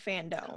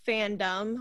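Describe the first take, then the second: First: The last syllable rhymes with 'home'. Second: The last syllable is a short 'dum' sound. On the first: It is the official event name ending in dome. The speaker calls it right. "when I should have said fandom" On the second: It is the everyday word for a community of fans. The speaker calls it wrong. "I accidentally said fandom"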